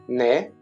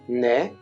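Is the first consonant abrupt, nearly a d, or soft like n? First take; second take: soft; soft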